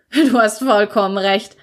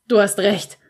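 First: Louder, still laughing; laughing breathlessly. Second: Lightly voiced, laughing through it; breathless laugh. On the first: Brother to Toni, still laughing hard, breathless. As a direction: burst out with it after the laugh. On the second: Brother catching his breath from laughing, breathless. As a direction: gasp it out between laughs. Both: A narrator's reading. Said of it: "bringt er schwer atmend hervor".

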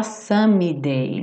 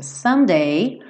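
First: "someday" with an extra ee after the M; learner's "sum-ee-day" for "someday"; wrong pronunciation. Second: "Someday" with M straight into D; silent middle E. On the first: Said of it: "cuidado pra não falar someday". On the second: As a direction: model "Someday" in two syllables, no vowel after M. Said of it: "Esse é, ó, tá pintadinho de cinza". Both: Shown as a demonstration.

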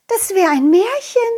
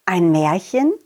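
First: Put-on high girl voice; little girl wondering; butterfly girl. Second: Low questioning echo; surprised repeat; puzzled echo. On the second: Acted. Clown echoes.

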